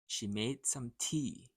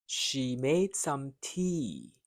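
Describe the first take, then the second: First: "She made some tea" said a little quicker and lighter; a little faster. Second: "She made some tea" said slowly, each word drawn out. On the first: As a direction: pick up the pace a bit. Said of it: "then a little faster". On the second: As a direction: take it slow and clear for the learner. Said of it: "Repeat each line after me, first slow". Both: Shown as a demonstration.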